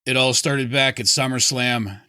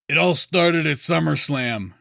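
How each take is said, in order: First: It is said in a flat monotone. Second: It is said with more natural inflection.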